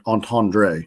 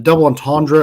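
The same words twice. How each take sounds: First: "entendre" with a French-style -dray ending. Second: "entendre" with a short, unstressed -druh ending. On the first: Host offering the other way, "entendre" ending in -dray. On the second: Host checking how to say it, "entendre" ending in -druh. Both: Shown as a demonstration. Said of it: "Is it double entendre or entendre".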